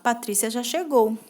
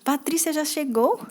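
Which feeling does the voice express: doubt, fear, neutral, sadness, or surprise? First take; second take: neutral; surprise. First: It sounds like a plain, neutral statement. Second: It sounds surprised and astonished. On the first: The speaker simply states a fact. "simples afirmação, quando tu tá afirmando" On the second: The speaker did not expect the arrival. "Quando tá com surpresa"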